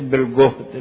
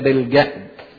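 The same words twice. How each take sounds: First: It is pronounced as the word for electrical voltage. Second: It is pronounced as the word for toil. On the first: It refers to electrical voltage. The speaker calls it wrong. "ناس كتيرة بتصلي الكلمة دي غلط، تقول إذا كان الصديق بالجهد" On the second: It refers to toil or suffering. The speaker calls it right. "لا، هي بالجهد"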